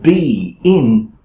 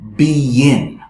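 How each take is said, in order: First: The words are separate, with no added sound. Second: The words are linked by an added 'y' sound. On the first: The speaker calls it wrong. "instead of be in" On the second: The speaker calls it right. "I added a yeah sound"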